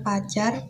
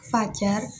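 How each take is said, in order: First: The word begins with a p sound. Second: The word begins with an f sound. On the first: The speaker calls it wrong. "Bukan pajar" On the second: The speaker calls it right. "kata-kata yang benar adalah fajar"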